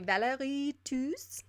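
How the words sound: The name is said with a French accent.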